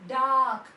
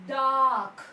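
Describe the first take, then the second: The two takes are said the same way.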